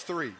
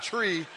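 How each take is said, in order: First: "three" said with a clear th sound; correct three. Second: "tree" said with a plain t, no th sound; wrong tree. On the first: Preacher correcting the crowd, clear th in three. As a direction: give "three" a proper th, with a small laugh. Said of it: "No, it's not tree". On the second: Preacher mocking the crowd's count, saying tree with t. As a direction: say "tree" like the sloppy count he heard. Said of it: "I actually heard someone say tree". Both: Shown as a demonstration.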